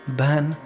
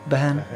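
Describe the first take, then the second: The two takes are said the same way.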